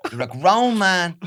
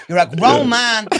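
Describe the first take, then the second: First: Mock furious wife. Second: Higher, louder, fast nagging wife; mock furious wife. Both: Playing a wife scolding her husband over spaghetti. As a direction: rant like a fed-up Irish mammy. Pretend marital row.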